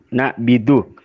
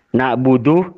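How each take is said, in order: First: The first two syllables have 'a' then 'i'. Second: The first two syllables have 'a' then 'u'.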